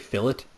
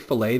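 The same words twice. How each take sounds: First: It is said the British way. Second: It is said the American way.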